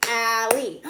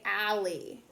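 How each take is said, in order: First: "Allie" in two loud, separate beats; "Allie" broken firmly into its two syllables; clapped syllables. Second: Said in the usual way. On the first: Shown as a demonstration. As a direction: clap out "Allie", one beat per syllable. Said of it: "Two syllables too". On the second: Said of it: "How many syllables are you hearing".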